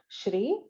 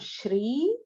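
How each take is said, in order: First: The vowel is kept short. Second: The vowel is held long. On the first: The speaker calls it wrong. "not shri" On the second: The speaker calls it right. "Here it is a dhirgam shri"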